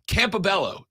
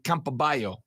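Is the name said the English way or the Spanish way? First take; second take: English; Spanish. First: The double L is said as a plain L. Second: The double L is said the Spanish way. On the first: "That's how you say that, right?" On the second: "with two L's in Spanish, it would be Campaballo"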